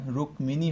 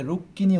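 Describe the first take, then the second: First: রুক্মিণী said "rukmini", with audible m; m pronounced. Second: রুক্মিণী said "rukkini", no m; doubled k. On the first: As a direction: keep the ম in রুক্মিণী: "ruk-mi-ni". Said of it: "কখনোই এটা রুক্মিণী হবে না". (রুক্মিণী-তে ম স্পষ্ট, "রুকমিনি") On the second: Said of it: "এটাকে রুক্মিণী উচ্চারণ করতে হবে". (রুক্মিণী-র ম বাদ দিয়ে "রুক্কিনি" উচ্চারণ) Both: Shown as a demonstration.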